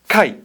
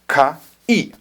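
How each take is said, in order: First: The two sounds are joined into one syllable. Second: The two sounds are said separately with a break. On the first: The speaker calls it right. "Becomes one thing" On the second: The speaker calls it wrong. "you're really not going to say ka i"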